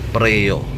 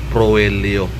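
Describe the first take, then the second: First: The first vowel is said as 'e'. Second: The first vowel is said as 'o'. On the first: The speaker calls it right. "Preo ito pag-pronounce" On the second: The speaker calls it wrong. "hindi proelio"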